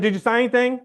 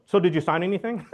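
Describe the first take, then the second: First: Urgent repeat. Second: Said in the usual way. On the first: Retold or imitated. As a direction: push the question again with urgency. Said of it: "I said". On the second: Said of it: "my first question was".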